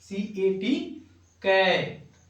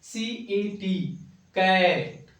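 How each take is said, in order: The two takes are said the same way.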